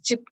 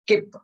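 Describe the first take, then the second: First: The word begins with a ch sound. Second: The word begins with a k sound. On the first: The speaker calls it right. "C H I P is chip" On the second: The speaker calls it wrong. "No, that's wrong"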